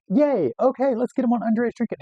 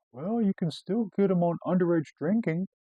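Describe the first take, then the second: First: High, loud mock cheer; excited. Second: Raised-pitch mock magistrate; imitated magistrate. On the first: Cop to magistrate on finding a charge, excited. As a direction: cheer with hammed-up glee. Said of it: "you know, excited". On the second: Magistrate to disappointed cop, imitated helpful suggestion. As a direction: suggest it in a lilting, higher voice.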